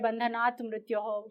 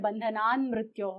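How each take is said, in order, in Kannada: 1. ಮೊದಲ ಪದ t ಧ್ವನಿಯಲ್ಲಿ ಕೊನೆಯಾಗುತ್ತದೆ. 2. ಮೊದಲ ಪದ n ಧ್ವನಿಯಲ್ಲಿ ಕೊನೆಯಾಗುತ್ತದೆ. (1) "ಬಂಧನಾತ್ ಮೃತ್ಯೋಹೋ ಅನ್ನೋದು ಒರಿಜಿನಲ್ ವರ್ಡಿಂಗ್" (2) "ತ ಬದಲಿಗೆ ನ ಬರುತ್ತೆ"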